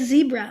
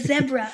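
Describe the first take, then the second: First: It is said in the speaker's own non-British accent. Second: It is said the British way.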